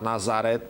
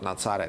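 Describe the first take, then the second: First: The middle consonant is a plain z sound. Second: The middle consonant is a ts sound. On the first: "not Nazaret" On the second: "exactly through ts, through the ts sound"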